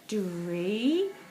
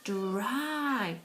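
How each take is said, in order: First: The word ends with an 'ee' vowel sound. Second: The word ends with an 'eye' vowel sound. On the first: The speaker calls it wrong. "see if it's the e pronunciation" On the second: The speaker calls it right. "The proper letter name, the Y"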